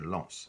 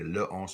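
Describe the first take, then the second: First: The article's L joins directly onto the noun. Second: The article is a separate syllable before the noun. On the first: The speaker calls it right. "you say lance" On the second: The speaker calls it wrong. "you don't say le once"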